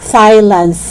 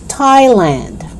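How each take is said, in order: First: The word begins with a th sound. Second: The word begins with a plain t sound. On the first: The speaker calls it wrong. "So it's not Thailand" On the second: The speaker calls it right. "you only pronounce it with T"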